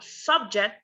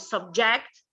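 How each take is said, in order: First: The stress is on the first syllable. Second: The stress is on the second syllable. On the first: It is used as a noun. "like a noun, we stress the first syllable" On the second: It is used as a verb. "like a verb, we stress the the final syllable"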